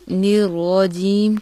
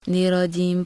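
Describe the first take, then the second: First: The r sound is held and doubled. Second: The r sound is short and single. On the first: The speaker calls it right. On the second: The speaker calls it wrong.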